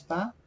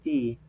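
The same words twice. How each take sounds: First: T named as "ta", with an open ah vowel; "ta" with an ah sound; Quechua letter T. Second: T named as "ti", with an ee vowel; "ti" with a long ee sound; English letter T. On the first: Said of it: "In Quechua, you pronounce ta". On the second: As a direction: say the letter as "ti", rhyming with see. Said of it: "or you pronounce ti". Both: Shown as a demonstration.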